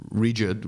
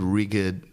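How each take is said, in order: First: Said in the usual way. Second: "rigid" with a hard g, like "RIG-id"; "rigid" slipped into "riggid"; mispronounced rigid. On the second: Real, not acted. Stumbles, corrects the word after.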